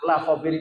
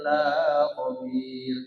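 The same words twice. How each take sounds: First: The vowel in 'la' is short. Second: The vowel in 'la' is drawn out long. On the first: He is fully aware. The speaker calls it right. "la khabir itu lam kosam" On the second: He is not aware. The speaker calls it wrong. "Tetapi kalau dipanjangkan"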